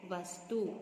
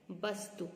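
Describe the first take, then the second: First: वस्तु with v, "vastu"; careful model "vastu" for वस्तु; correct pronunciation. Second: वस्तु with b, "bastu"; wrong pronunciation. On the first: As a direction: say वस्तु starting on v, not b. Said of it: "क्या शुद्ध शब्द होता है?". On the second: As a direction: say वस्तु starting with a b sound. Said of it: "वस्तु नहीं होता है". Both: Shown as a demonstration.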